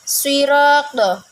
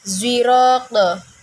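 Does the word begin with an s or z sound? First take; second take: s; z. First: The word begins with an s sound. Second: The word begins with a z sound.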